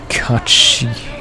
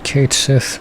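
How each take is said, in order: First: It sounds like 'Kachi' in a shrill voice. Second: It sounds like 'Kate Sith' in a normal voice. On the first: "they pronounce it at like Kachi in a very kind of shrill voice" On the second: "I always said it Kate Sith"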